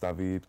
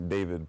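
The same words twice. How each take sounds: First: The name is pronounced the Creole way. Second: The name is pronounced the English way. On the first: "back at home my name is David because we, we speak Creole at home" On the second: "in English my name is technically David"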